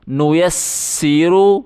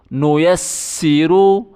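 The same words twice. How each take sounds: The two takes are said the same way.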